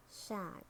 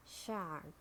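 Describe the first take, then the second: First: "shark" with a British silent R; British "shark", said shahk; British accent. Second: "shark" with a sounded American R; American "shark", curl the R before k; American accent. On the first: Teacher models shark for learners, British accent. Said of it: "in British English". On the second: Teacher models shark for learners, American accent. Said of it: "R in American English". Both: Shown as a demonstration.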